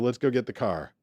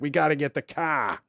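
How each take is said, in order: First: It is said calmly, with the R pronounced. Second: It is said in an annoyed, angry way.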